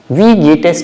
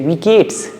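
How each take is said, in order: First: Geht and es are said as separate words. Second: Geht and es merge into one syllable. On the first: "First sentence" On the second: "But when we speak, we say"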